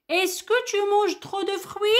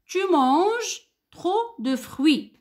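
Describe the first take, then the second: First: "Est-ce que tu manges trop de fruits?" pitched high, voice climbing as a question; rising question tune. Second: Sentence read out with a falling statement tune; plain statement. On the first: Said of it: "Regardez l'intonation que j'ai dit". (intonation montante de question) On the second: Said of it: "Regardez cette phrase". (phrase affirmative qui descend à la fin) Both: Shown as a demonstration.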